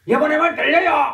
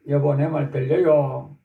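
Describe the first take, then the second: First: It is said very loudly, almost shouted. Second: It is said at a normal, soft volume.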